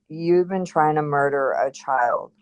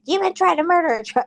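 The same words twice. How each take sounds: First: It is said in a calm, matter-of-fact tone. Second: It is said in a harsh, mean tone.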